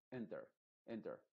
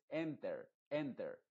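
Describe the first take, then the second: First: Enter with a dull, half-closed E; muffled E. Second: Enter with a full, clear Spanish E; too clear E. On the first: Teacher models the right enter. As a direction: say enter softly with a swallowed E. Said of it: "pero muy apagada". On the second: Teacher shows the other wrong enter. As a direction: say enter with an open, bright E. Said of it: "como una E, pero muy apagada". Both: Shown as a demonstration.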